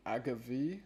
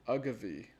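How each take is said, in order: First: "agave" as AG-uh-vee with a rising end; questioning pronunciation. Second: "Agave" as UH-guh-vee with a falling end; corrected pronunciation. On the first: Reader unsure of the word, "agave" as rising AG-uh-vee. Tries out agave, then rejects it. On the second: Reader correcting the word, "Agave" as falling UH-guh-vee. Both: Shown as a demonstration.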